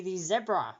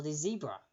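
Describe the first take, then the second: First: "zebra" with a short e, ZEB-ra. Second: "zebra" with a long ee, ZEE-bra. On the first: Host giving the quiz answer, "zebra" said ZEB-ra. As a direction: say "zebra" to rhyme with Debra. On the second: Host offering the other regional form, "zebra" said ZEE-bra. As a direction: say "zebra" starting like the letter Z in American English, ZEE-bra. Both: Shown as a demonstration. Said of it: "depending on where you are from and how you pronounce it".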